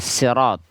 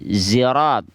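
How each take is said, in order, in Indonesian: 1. Diawali dengan bunyi s biasa yang ringan. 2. Diawali dengan bunyi z bersuara. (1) "bisa juga dibaca pakai sin" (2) "dibaca dengan zai"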